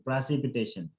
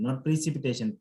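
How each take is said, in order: First: "precipitation" with the first syllable as "pra", open vowel; correct precipitation. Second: "precipitation" with the first syllable as "pri"; wrong vowel demo. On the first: Teacher modelling the right pronunciation for the student. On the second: Teacher showing the student's mistaken vowel. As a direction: mimic the student's "pri-cipitation". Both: Shown as a demonstration.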